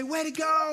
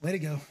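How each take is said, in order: First: Bright, high, upbeat praise; cheerful praise. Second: Low, dry sarcastic "Way to go.". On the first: Pastor demos sincere praise to the congregation, high and bright. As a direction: sound genuinely pleased and encouraging. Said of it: "for example, I can say". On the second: Pastor demos the same words said sarcastically, low and dry. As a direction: let it drip with sarcasm, pitched low. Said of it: "I can say". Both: Shown as a demonstration.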